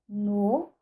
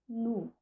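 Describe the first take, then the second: First: The vowel is a mid back o sound. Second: The vowel is a high back u sound. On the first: "que se realiza no" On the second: "varia com a realização nu"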